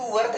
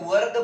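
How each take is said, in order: First: The word ends in an aspirated t sound. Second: The word ends in a soft d-like sound. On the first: The speaker calls it wrong. "इसको वर्थ नहीं बोला जाता है" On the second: The speaker calls it right. "वर्द बोला जाता है"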